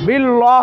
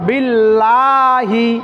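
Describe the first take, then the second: First: The word ends on 'lah' with no final vowel. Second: The word ends with a final 'hi' syllable. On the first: The speaker calls it wrong. "বিল্লাহ হবে না" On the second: The speaker calls it right. "বিল্লাহ না হয়ে বিল্লাহি"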